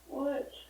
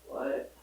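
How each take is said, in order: First: It is said flatly, without enthusiasm. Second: It is said with more enthusiasm.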